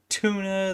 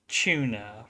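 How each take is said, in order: First: It is said with a plain US accent. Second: It is said the UK way, with a 'ch' sound.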